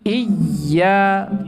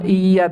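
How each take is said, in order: First: The doubled y is pressed hard with extra force. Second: The doubled y is said lightly, without extra pressure. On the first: The speaker calls it right. "tapi iya ditekan lebih" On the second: The speaker calls it wrong. "tidak sekedar di ditasdid iya iya"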